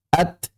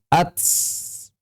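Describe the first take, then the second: First: The t ends with only a puff of breath. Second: The t ends with an added s sound. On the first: The speaker calls it right. "hanya mengembuskan napas saja" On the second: The speaker calls it wrong. "kekeliruan mengucapkan huruf ta, menambah huruf baru, misalnya jadi sin"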